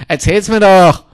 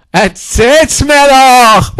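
First: Said in the usual way. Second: Slow, stretched mocking singsong; milk every syllable of "mir"; drawn-out taunt. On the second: Taunting the old woman, drawn out slow.

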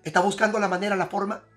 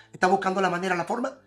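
No difference in how they are said.

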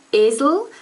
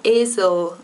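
First: Esel stressing the closed first e, ay-sound. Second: Esel with a reduced schwa in the second syllable. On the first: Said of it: "the first e is like this". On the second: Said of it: "the second one is a schwa". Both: Shown as a demonstration.

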